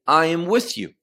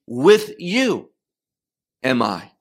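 First: Said in the usual way. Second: WITH YOU stretched and set apart, then a drop on "am I"; emphasis on WITH YOU. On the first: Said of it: "he does not say". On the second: Shown as a demonstration. Preacher showing the congregation the verse's emphatic phrase, stress on WITH YOU. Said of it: "what is emphatic is the phrase".

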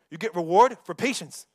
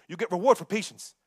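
The two takes are said the same way.

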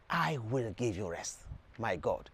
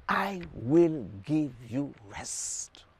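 First: Much lower and softer, almost confiding; hushed promise. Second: Slow quoted promise. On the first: Preacher repeating Jesus' promise to listeners, low and hushed. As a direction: let it sink to a low, soft close. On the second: Preacher quoting Jesus to the congregation, slow and deliberate. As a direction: draw out every word, very slowly. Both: Acted.

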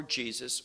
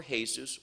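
First: Said in the usual way. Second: "Jesus" pronounced hay-SOOS, as in Spanish; Spanish pronunciation. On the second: Shown as a demonstration. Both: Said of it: "whatever language you speak".

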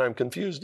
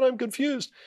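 First: Said in the usual way. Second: Much higher, echoing the doctor's words in wonder; much higher amazed repeat of the doctor's words. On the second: Retold or imitated. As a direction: lift it way up, stunned it's coming true.

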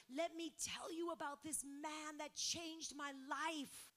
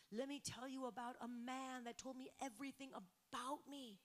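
First: Louder, slower, exultant 'Let me tell you'; rising joyful testimony. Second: Said in the usual way. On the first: Retold or imitated. Samaritan woman telling the town about Jesus, louder and slow. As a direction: proclaim it like the news of your life.

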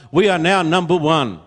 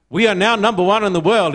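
First: Said in the usual way. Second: Quoting a boast, a bit higher and brighter; mildly proud quote. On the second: Retold or imitated. Preacher quoting a proud man to his congregation, mildly proud. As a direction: puff up a little like a proud man. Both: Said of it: "he said very proudly".

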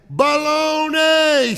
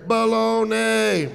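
First: High, loud, stretched holler; mock yell. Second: Echo from behind. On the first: Wife trying one more time, long high mock shout. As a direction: bellow it out long to test an echo. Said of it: "Yell again". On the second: Retold or imitated. Wife hears it behind her, lightly drawn-out echo reply. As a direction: draw it out like an answering echo. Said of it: "she hears behind her".

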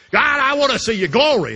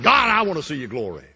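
First: Loud pleading cry. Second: Said in the usual way. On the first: Acted. Moses pleading to God.

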